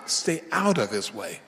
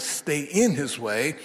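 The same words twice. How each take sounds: First: Emphasis lands on "out"; stress on OUT. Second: Emphasis lands on "in"; stress on IN. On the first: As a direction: stay OUT of his way, "out" picked out. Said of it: "point here was stay in his way". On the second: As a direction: stay IN his way, "in" picked out. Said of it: "but now stay out of his way". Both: Shown as a demonstration.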